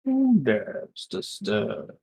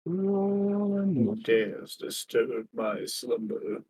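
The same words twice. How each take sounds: First: Lightly voiced, slow woken deity; sleeping ancient god. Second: Slow, low, booming awakened deity; sleeping ancient god. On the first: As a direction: drawl it like a god just roused. GM echoes the line in the voice. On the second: Acted. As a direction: rumble it out like a god woken from sleep. Lion voiced as awakened ancient being.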